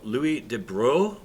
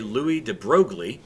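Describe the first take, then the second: First: The name is said the French way. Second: The name is said the American way.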